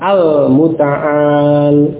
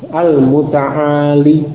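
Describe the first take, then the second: First: The word ends on the consonant with no vowel. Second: The word ends with a final 'ee' vowel. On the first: The word is read in pause with the final letter dropped. "huruf ya-nya dihilangkan" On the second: The word is read with its original final letter and case vowel. "itu al-muta'ali dengan kasrah"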